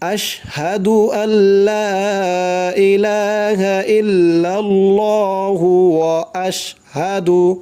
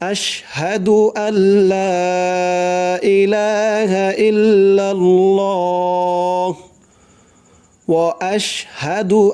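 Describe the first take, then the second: First: It runs on without a pause, adding 'hu'. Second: It pauses after 'illallah' before continuing. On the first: "আর যদি না থামি ... এরকম করে পরে ধরতে হবে" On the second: "থেমে পড়বো"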